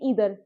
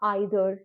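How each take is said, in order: First: The word begins with an 'ee' sound. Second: The word begins with an 'eye' sound. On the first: This is how the British say it. "British क्या बोलते हैं ईदर" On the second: This is how Americans say it. "Americans बोलते हैं आइदर"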